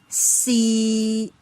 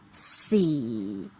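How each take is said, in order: First: The pitch stays level in the middle. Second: The pitch drops quickly to the bottom. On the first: "it remains a flat level in the middle level" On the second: "It is very low and it drops from the mid-low level to the lowest very quickly"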